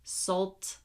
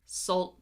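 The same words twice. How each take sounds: First: The final T is released with a puff. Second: The final T is held and not released. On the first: The speaker calls it wrong. "I am not saying salt, salt and, salt, no" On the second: The speaker calls it right. "Also notice I am not releasing the T"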